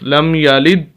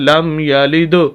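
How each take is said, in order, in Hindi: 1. आख़िरी 'd' बिना छोड़े काट दिया जाता है। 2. आख़िरी 'd' झटके के साथ छोड़ा जाता है। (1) "अगर हम कलकला ना करें तो ... दाल की आवाज़ को रोक देंगे बस" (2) "जब कलकला करेंगे, जो कि सही तरीका है"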